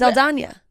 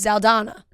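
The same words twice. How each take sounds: First: The last syllable has a 'ny' sound. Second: The last syllable has a plain n sound. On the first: "the way I think you're supposed to pronounce it" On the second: "sometimes people just say"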